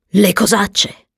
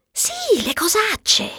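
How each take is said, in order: First: "cosacce" asked back in fuller voice; "cosacce" as a plain-voiced question; questioning echo. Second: Very high, soft, coy yes; hushed, high-pitched naughty admission; coy confirmation. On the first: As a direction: ask "cosacce" back, puzzled, in a normal voice. Asking back about the euphemism. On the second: Acted. Confirming the euphemism coyly.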